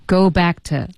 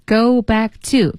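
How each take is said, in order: First: "to" weakened and joined onto "back"; light, unstressed "to" after "go back"; reduced to. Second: "to" said as a full separate word; slow, careful "to" after "go back"; full form of to. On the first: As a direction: run "back to" together with a weak "to". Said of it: "变成". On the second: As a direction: give "to" its full vowel, unlinked. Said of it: "go back to变成go back to". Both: Shown as a demonstration.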